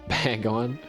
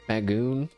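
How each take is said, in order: First: The second syllable has a short 'o' sound. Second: The second syllable has a long 'oo' sound. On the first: The speaker calls it right. "Isn't that how you say it?" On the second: The speaker calls it wrong. "No, it can't be Bagoon. There's only one O!"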